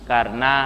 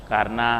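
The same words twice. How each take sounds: The two takes are said the same way.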